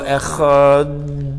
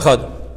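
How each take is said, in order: First: The word is drawn out and lengthened. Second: The word is said short and quickly. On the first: The word is prolonged as recommended for a long life. "They're being mayrich, they're making it long" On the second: The word is said plainly without prolonging. "They don't say Echad"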